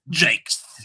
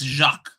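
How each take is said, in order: First: The name is said like English 'Jakes'. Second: The name is not said like English 'Jakes'. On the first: The speaker calls it wrong. "you're pronouncing it as if his name was like, you know, J A K E S" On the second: The speaker calls it right. "It's Jacques"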